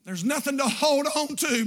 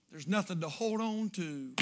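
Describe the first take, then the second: First: Said in the usual way. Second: Put-on soft, fading voice of a dying child; hushed dying-boy plea; dying boy's whisper-soft words. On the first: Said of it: "repeats the line plainly". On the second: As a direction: let it drift away, barely there.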